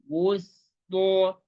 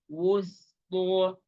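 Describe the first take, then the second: The two takes are said the same way.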